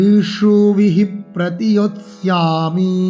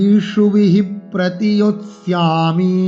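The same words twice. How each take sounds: No difference in how they are said.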